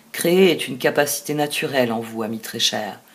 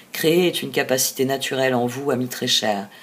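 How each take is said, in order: Both takes have the same delivery.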